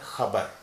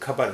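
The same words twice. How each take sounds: First: It starts with a rough throaty friction sound. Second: It starts with a plain aspirated k sound. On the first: The speaker calls it right. "सही उच्चारण है खबर ... वही ग्लॉटल sound है" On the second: The speaker calls it wrong. "ये खबर नहीं है"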